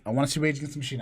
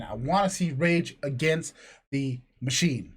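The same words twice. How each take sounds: First: Said in the usual way. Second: "Rage Against the Machine" drawn out with pauses between words; emphatic repeat. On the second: Retold or imitated.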